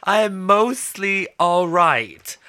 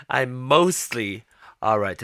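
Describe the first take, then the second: First: "I am mostly all right" slow, with stress on "I"; slow emphatic. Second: Said in the usual way. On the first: Real, not acted. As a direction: lean on "I" and drag "I am mostly all right" slowly.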